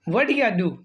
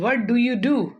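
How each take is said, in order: First: The words 'do you' are shortened to 'ya'. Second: The words 'do you' are said in full.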